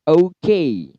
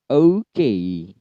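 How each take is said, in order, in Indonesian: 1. Kata ini dimulai dengan bunyi o yang penuh. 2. Kata ini dimulai dengan bunyi o yang penuh.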